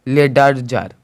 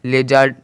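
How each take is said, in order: First: The d sound is clearly pronounced. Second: The d sound is silent. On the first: The speaker calls it wrong. "ना कि लेडरजर, लेडरजर नहीं निकला है" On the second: The speaker calls it right. "D का कोई भी उच्चारण नहीं निकला है, लेजर निकला है"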